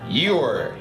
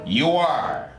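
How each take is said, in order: First: The words are joined into one syllable. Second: The words are said as two syllables. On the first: "la forma corta" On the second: "la forma completa"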